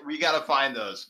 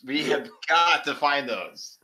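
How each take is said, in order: First: Said in the usual way. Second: Slow, emphatic "got"; stress on GOT. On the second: Real, not acted. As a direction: draw out and punch the word "got". Repeats it with more emphasis.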